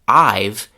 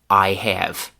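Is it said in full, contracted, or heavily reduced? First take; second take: contracted; full. First: The words merge into one contracted syllable. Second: Both words are said fully and separately. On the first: "the contraction" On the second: "the classic classroom pronunciation"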